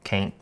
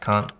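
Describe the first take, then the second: First: It is said with an American accent. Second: It is said with a British accent.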